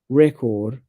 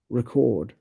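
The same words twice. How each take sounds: First: The stress is on the first syllable. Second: The stress is on the second syllable. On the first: It is used as a noun. "two syllable nouns have the first syllable stressed" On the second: It is used as a verb. "many two syllable verbs have the second syllable stressed"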